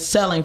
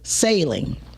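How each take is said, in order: First: The first vowel sounds like in 'sell'. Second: The first vowel sounds like in 'sail'. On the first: The speaker calls it wrong. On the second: The speaker calls it right.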